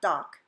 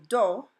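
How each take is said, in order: First: "doc" as dahk; English vowel. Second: "do" as doh, with a pure O; Spanish O. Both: Shown as a demonstration. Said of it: "not doc".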